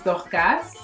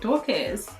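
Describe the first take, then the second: First: The name is said with a French accent. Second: The name is said with an English accent. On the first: This is how it is said back home. "That's how we say it back home" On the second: This is how people say it here. "here it's kind of like Dorcas"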